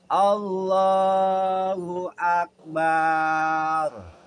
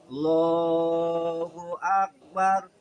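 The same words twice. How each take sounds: First: The final a in Akbar is stretched long. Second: The first a sound is dropped quickly. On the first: "Kemudian di belakangnya ditambahin pakai ba" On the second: "Atau dibuang di depan huruf alif"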